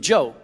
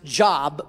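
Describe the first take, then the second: First: It sounds different from the common word job. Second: It sounds like the common word job. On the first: The speaker calls it right. "but it's really Job" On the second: The speaker calls it wrong. "you may pronounce it Job"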